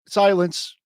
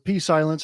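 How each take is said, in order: First: The word starts with an s sound, no p. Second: The word starts with a p sound before s. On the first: "the P is silent" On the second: "I like to pronounce it just to spite him sometimes"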